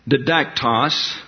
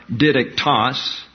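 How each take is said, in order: First: Didactos with the middle syllable DAC stressed. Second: Didactos with the first syllable DI stressed. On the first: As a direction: slowly say didactos, leaning on the second syllable. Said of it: "emphasize the next to the last syllable". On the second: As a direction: slowly say didactos as DID-ec-tos, front-stressed. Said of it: "we have a tendency to emphasize". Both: Shown as a demonstration.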